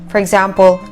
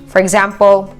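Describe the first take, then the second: No difference in how they are said.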